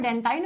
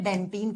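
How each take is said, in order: First: The last syllable rhymes with 'line'. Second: The last syllable rhymes with 'seen'. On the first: This is the English way of saying it. "English में डेंटाइन" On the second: This is the Hindi way of saying it. "Hindi में डेंटीन"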